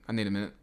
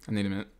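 No difference in how they are said.

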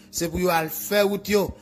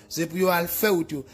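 The two takes are said the same way.

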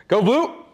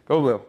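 First: Loud, rising cheer for the team; pumped-up football chant. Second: Said in the usual way. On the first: Pretend. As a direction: shout it like a fan in the stands.

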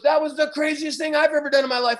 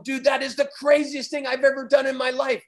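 First: Higher, keyed-up imitation of the driver; driver's echo. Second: A touch higher, hyped-up retelling; amazed exclamation. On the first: Driver telling the surfer the same thing back, mildly hyped. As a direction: echo it back, lightly amazed. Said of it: "he looks at me and he goes". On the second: Retold or imitated. Survivor telling the driver it was his craziest ride, mildly hyped. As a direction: mildly relive the thrill. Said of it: "And I just told him".

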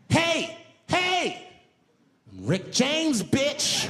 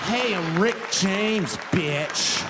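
First: High, loud, brash celebrity shout. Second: Slow, loud drawn-out catchphrase. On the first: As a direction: belt it out like a wild party star. [name] greeting at park. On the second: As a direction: stretch every word out with swagger. [name] repeating his line. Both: Retold or imitated.

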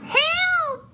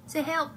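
First: Very high, loud squeal; piercing storybook cry; witch crying for help. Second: Said in the usual way. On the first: A narrator's reading. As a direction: shriek for help as the fleeing witch. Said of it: "cried the witch".

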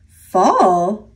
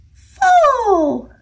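First: Said in the usual way. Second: High squeaky squirrel answer. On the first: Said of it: "a silly name". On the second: A narrator's reading. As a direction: chirp it like a little squirrel, much higher. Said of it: "said another squirrel".

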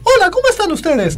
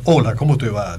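First: Very high put-on falsetto greeting; high squeaky voice. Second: Put-on low, gruff greeting; deep thick voice. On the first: Imitator demonstrating an easy voice anyone can copy, high-pitched voice. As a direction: leap way up into a cartoonish high hello. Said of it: "O si te digo que hagas". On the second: Imitator demonstrating that anyone can fake it, deep voice. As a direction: drop your voice low for a mock deep hello. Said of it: "que hagas una voz gruesa". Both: Shown as a demonstration.

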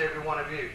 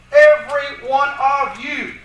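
First: Said in the usual way. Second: "every one of you" slow, loud and high; emphatic. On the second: Shown as a demonstration. Lecturer showing the emphatic Greek wording, "every one of you" hammered slowly. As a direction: punch out each word of "every one of you". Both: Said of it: "the emphatic way of saying it".

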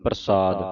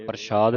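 First: ਪ੍ਰਸਾਦ with a plain s, not sh; clear s sound. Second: ਪ੍ਰਸਾਦ with sh in place of s; wrong sh sound. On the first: Teacher models the correct ਪ੍ਰਸਾਦ, with plain s. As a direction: say ਪ੍ਰਸਾਦ as "parsaad". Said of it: "ਸੱਸਾ ਬੋਲਣਾ". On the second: Teacher shows students the wrong ਪ੍ਰਸਾਦ, with sh. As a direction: say ਪ੍ਰਸਾਦ as "parshaad". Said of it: "ਨਹੀਂ ਪੜ੍ਹਨਾ ਇਹਨੂੰ". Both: Shown as a demonstration.

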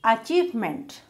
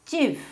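First: Said in the usual way. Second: "Achievement" split as a, chieve, ment; three separate beats on "Achievement"; syllable by syllable. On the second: Shown as a demonstration. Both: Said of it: "Three syllable".

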